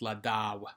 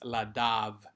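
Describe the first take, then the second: First: The middle consonant is a W sound. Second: The middle consonant is a V sound. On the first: The speaker calls it right. "it's a W sound" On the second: The speaker calls it wrong. "we don't say the V"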